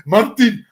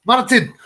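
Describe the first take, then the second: First: Loud, higher second go at a Scottish Martin; attempted Scottish accent. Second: A loud, higher failed stab at a Scottish trainer calling Martin; loud half-hearted Scottish shout of Martin; attempted Scottish accent. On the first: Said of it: "I can't do a Scottish accent". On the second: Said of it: "he's Scottish, so he doesn't speak like that".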